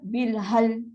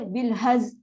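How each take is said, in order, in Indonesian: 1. Kata ini diakhiri dengan bunyi l saja. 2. Kata ini diakhiri dengan bunyi z saja. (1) "Zai dah hilang" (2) "lam pula dah hilang"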